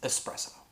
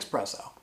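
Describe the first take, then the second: First: The word begins with an 'es' sound. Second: The word begins with an 'ex' sound. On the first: The speaker calls it right. "It's espresso" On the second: The speaker calls it wrong. "It's not how you say it, it's not how it's spelled, it's totally wrong"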